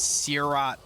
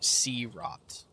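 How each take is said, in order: First: The name is not said as 'sea' plus 'rot'. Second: The name is said as 'sea' plus 'rot'. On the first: The speaker calls it wrong. "I pronounced this Searot" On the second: The speaker calls it right. "it's literally sea rot"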